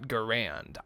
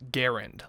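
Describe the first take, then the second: First: The name does not rhyme with errand. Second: The name rhymes with the word errand. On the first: The speaker calls it wrong. "not Garand" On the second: The speaker calls it right. "pronounced Garand, like errand"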